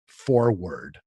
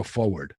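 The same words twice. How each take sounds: First: "forward" with a clear R in the first syllable; careful, drawn-out "forward" with both Rs; R fully pronounced. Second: "forward" said as FOH-ward; New Jersey "forward", no R in the first syllable; dropped R. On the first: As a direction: say "forward" slowly as FOR-ward, R sounded. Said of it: "did not know that you go". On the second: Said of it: "I thought it was you go". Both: Shown as a demonstration.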